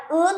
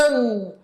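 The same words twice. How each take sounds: First: Said in the usual way. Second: "un." closed with a back nasal ng, not a plain n; "un." con ng final, no con n; Korean final ng. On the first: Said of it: "No sería un nomás". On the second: Shown as a demonstration. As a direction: make "un." hum as ng in the throat. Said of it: "sino que sería".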